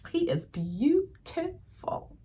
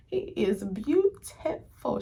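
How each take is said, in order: First: High, slow, soft swoon over a handsome actor; dreamy swoon, drawn out and hushed. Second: A softer, slower echo of the swoon; gentle dreamy afterthought; lighter swoon. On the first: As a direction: melt as you sigh out the words. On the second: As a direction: say it again, still dreamy but calmer. Swooning repeat, calmer. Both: Real, not acted.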